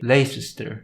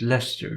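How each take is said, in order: First: The name is pronounced as it is spelled. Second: The name is pronounced unlike its spelling. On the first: The speaker calls it wrong. "The logical thing would be to say" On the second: The speaker calls it right. "yet you pronounce it"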